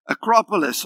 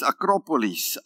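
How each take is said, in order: First: It is pronounced the usual English way. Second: It is pronounced the Greek way. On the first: "it's called Acropolis" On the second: "or the Greek is Akropolis"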